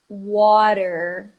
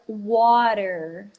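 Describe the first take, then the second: First: The t sounds like a quick r. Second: The t sounds like a quick r.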